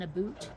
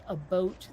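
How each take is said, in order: First: "a boot" with a long OO, standing in for "about". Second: "a boat" with a long OH, standing in for "about"; Canadian "about" rendered as "a boat"; Canadian-style "about". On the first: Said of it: "more like a boat than a boot". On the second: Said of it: "when I hear Canadians say about". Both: Shown as a demonstration.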